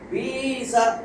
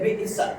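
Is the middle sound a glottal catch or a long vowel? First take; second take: long vowel; glottal catch. First: The vowel after 'b' is stretched long. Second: A glottal catch breaks the word after 'bi'. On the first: "এক আলিফ টান বিসা" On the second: "যখন এখানে হামজা থাকবে তখন ইয়ার উচ্চারণটা আর আসবে না"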